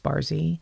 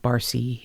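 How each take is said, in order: First: The middle consonant is a buzzing z sound. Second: The middle consonant is a hissing s sound. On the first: The speaker calls it right. "it's Barzy" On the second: The speaker calls it wrong. "it's not Barcy"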